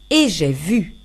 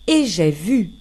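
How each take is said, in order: Both takes have the same delivery.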